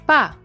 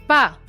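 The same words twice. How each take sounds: First: The pitch falls from high to low. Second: The same.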